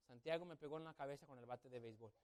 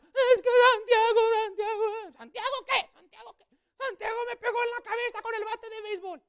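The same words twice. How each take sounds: First: Said in the usual way. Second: Put-on very high, loud wailing girl; crying sister. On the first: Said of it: "pero ¿cómo lo contó?". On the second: Sister crying to grandma about the bat, high and loud. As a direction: wail it like a sobbing kid. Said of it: "mi hermana llorando".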